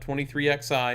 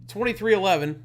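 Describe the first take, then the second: First: The XI is read as two separate letters. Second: The XI is read as the number eleven. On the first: The speaker calls it wrong. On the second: The speaker calls it right. "that's how you pronounce it"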